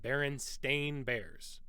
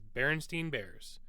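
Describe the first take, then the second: First: The middle syllable rhymes with 'stain'. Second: The middle syllable rhymes with 'stine'. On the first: This is the pronunciation nobody used. The speaker calls it wrong. "Not one time did anyone pronounce it Berenstain Bears" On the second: This is the pronunciation everyone used. The speaker calls it right. "It was always Berenstein Bears"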